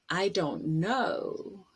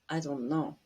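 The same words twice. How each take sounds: First: The vowels are full, with the mouth wide open. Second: The vowels are relaxed, with the mouth nearly closed. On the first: The speaker calls it right. "use your mouth better" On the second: The speaker calls it wrong. "instead of"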